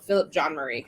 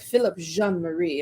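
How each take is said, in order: First: The name is said in a plain, ordinary way. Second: The name is said with a fancy, French-like twist. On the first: "And no, Philip John Marie, I guess" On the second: "he added that little fancy twist to it"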